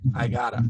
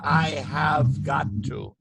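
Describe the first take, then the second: First: The words run together into one short form. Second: Every word is said separately and in full. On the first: The speaker calls it right. "What do we say?" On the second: The speaker calls it wrong. "we don't say"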